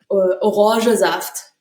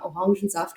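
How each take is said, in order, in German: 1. Das Wort wird ohne den n-Laut gesprochen. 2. Das Wort wird mit dem normalen n-Laut gesprochen. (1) "nicht Orangesaft" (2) "Orangensaft und nicht"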